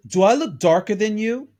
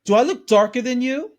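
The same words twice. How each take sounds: First: A touch raised and louder, taking offence; half-acted affronted retort; mock indignant quote. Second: Higher and louder, incredulous and cutting; hammed-up offended retort; affronted mock quote. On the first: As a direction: toss the question back at him. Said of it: "and she says". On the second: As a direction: fling it back as an outrage. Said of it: "I says".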